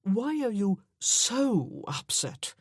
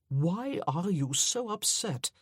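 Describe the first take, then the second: First: Why leaned on, slow and searching; rephrase, pressing on why; why stressed, puzzled question. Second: So leaned on, slow, gentle fall; so stressed in a tender question. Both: A narrator's reading. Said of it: "I mean".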